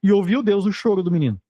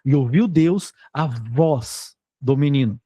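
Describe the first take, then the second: First: Said in the usual way. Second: Slow read, leaning on "a voz do menino"; slow, deliberate quoting with "voz" stressed. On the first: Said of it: "o que que ele ia escrever?". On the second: Shown as a demonstration. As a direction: weigh each word, landing on "voz". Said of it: "O que ele tá dizendo é".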